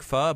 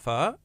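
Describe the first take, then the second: First: The word is said with a flat pitch. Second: The word rises in pitch like a question. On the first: "it's like pho" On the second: "you say it like a question"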